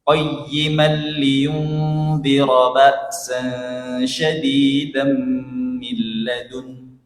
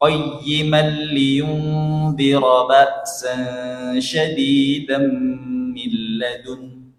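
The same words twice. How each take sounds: First: The nasal sounds are held and nasalized. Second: The same.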